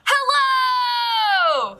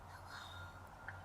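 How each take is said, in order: First: It is said very loudly. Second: It is said very softly.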